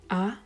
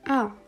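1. Die Tonhöhe steigt von mittel zu hoch. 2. Die Tonhöhe fällt stark von hoch zu tief. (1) "Der zweite Ton steigend" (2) "der vierte Ton komplett fallend"

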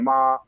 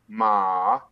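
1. يُنطق المقطع بالنغمة الأولى. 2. يُنطق المقطع بنغمة وسطى. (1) "نغمة أولى" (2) "النغمة الثالثة ما نغمة متوسطة"

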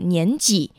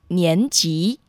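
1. 第二个音节不是上声。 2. 第二个音节是上声。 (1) "或年几" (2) "正确的读音是第二声年级"

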